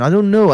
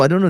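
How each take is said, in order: First: High, loud I don't know; exasperated shrug. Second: Said in the usual way. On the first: Real, not acted. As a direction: toss it off with disbelief.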